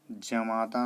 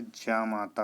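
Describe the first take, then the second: First: जमाता with a short first vowel; wrong pronunciation. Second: जामाता with a long first "aa"; correct pronunciation. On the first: Teacher voices the error, short first syllable in जमाता. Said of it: "नहीं होता है". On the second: Teacher gives the right form, long first syllable in जामाता. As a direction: lengthen "jaa" in जामाता. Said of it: "होता है". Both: Shown as a demonstration.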